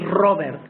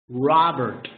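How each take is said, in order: First: The r sounds Spanish-like. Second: The r sounds English-like. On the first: The speaker calls it wrong. "They don't say Robert. Robert is incorrect" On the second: The speaker calls it right. "You say Robert"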